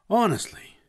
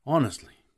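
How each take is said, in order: First: High, loud burst of exasperation; exasperated cry. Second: Higher, falling sigh of a word; a lesser, narrated exasperation; mild exasperation. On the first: Woman fed up with Newt's question, crying out. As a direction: cry it out, pitched right up. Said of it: "she cried". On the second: Woman answering Newt's apology, mildly exasperated. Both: A narrator's reading.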